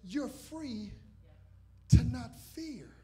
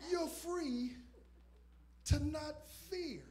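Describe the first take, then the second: First: FREE then a loud punched to not fear; emphatic repeat. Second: Higher, lifted You're free to not fear; emphatic repeat. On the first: Preacher repeating the line for emphasis, louder. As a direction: hit it harder the second time. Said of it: "I'm gonna say that again". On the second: Preacher giving the third emphatic repeat, lifted. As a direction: raise it up a notch. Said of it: "say it three times for emphasis". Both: Shown as a demonstration.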